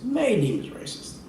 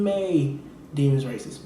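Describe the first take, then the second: First: Mocking, high sarcastic echo of "May deem as racist"; sarcastic repeat. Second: Said in the usual way. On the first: Shown as a demonstration. Comedian mocking the owners' claim, sarcastic high echo. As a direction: throw the words back in disbelief.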